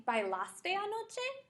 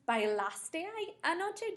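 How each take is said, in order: First: Anoche with a high rising question tune; question model. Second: Anoche rising high at the end; question model again. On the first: Teacher demonstrates asking a friend about last night. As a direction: ask bailaste anoche with a lifted end. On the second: Teacher repeats the question to a student, rising. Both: Shown as a demonstration. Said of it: "if I wanted to say".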